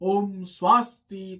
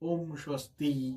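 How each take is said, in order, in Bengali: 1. এটি উচ্চস্বরে বলা হয়েছে। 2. এটি নিম্ন স্বরে বলা হয়েছে। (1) "উচ্চস্বরে বলবে" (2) "নিম্ন স্বরে বলবে"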